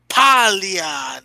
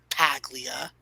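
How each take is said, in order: First: The name is said the Italian way. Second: The name is said the anglicized way. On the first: The speaker calls it right. "at least say it right" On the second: The speaker calls it wrong. "not Paglia"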